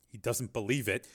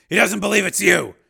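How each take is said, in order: First: Soft, terse report. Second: High, loud, forceful statement; loud urging. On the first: Agent updates Steele by radio, tersely. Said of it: "Sharp said tersely". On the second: Steele tells captive his son doubts him, loud. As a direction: raise your voice to press the prisoner. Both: Acted.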